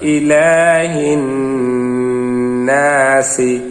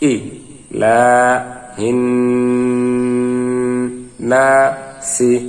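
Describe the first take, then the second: First: The syllables are run together smoothly. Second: Each syllable is said separately with breaks. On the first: "এবারে মিলিয়ে পড়বো আমরা।" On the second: "ভাঙ্গা ভাঙ্গা উচ্চারণ"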